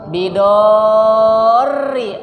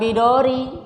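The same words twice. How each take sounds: First: The r sound is held and doubled. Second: The r sound is short and single. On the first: The speaker calls it right. "Ro-nya itu tasydid" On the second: The speaker calls it wrong.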